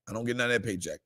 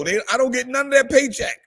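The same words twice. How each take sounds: First: Quiet aside. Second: Higher, louder and fast, playfully outraged; mock-indignant outburst. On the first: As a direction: lower and much softer, muttered to yourself. Same words repeated as an aside. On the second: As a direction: blurt it out in joking indignation. Joking complaint, then repeated quietly. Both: Real, not acted.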